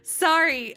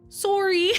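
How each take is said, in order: First: It is said with an attempted American accent. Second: It is said with a Canadian accent. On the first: "I don't know how Americans say it" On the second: "a very thick Canadian accent, and she always goes"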